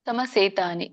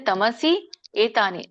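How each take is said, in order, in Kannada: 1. ಈ ಎರಡು ಪದಗಳು ಒಂದೇ ಪದವಾಗಿ ಸೇರಿವೆ. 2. ಈ ಎರಡು ಪದಗಳನ್ನು ಪ್ರತ್ಯೇಕ ಪದಗಳಾಗಿ ಹೇಳಲಾಗಿದೆ. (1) "ಕೂಡಿ ಹೇಳಿ" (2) "ಬಿಡಿಸಿದಾಗ"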